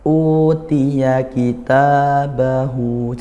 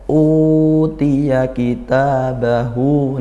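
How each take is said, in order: First: All long vowels are held for the same length. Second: The long u is held longer than the others. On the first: The speaker calls it right. "jangan beda-beda" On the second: The speaker calls it wrong. "yang u lebih panjang, jangan seperti itu"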